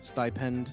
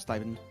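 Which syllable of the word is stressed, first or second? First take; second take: second; first. First: The stress is on the second syllable. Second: The stress is on the first syllable. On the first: This is the British way of saying it. "Standard British will have you put more on the pend" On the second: This is the speaker's own usual way of saying it. "we just go stipend"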